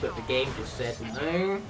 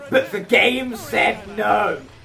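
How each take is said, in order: First: It is spoken at a normal, calm volume. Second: It is yelled loudly with high energy.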